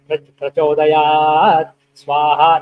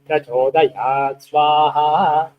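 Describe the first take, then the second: First: The final syllable before swaha keeps its higher pitch. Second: The final syllable before swaha drops to low pitch. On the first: The speaker calls it wrong. "not like that" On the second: The speaker calls it right. "that becomes anudata"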